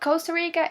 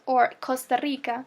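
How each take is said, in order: First: It is said with an American accent. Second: It is said with a general Spanish accent. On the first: "if you wanted to pronounce it like an American accent" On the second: "which is the right way to pronounce it"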